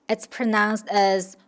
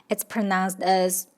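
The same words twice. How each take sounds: Both takes have the same delivery.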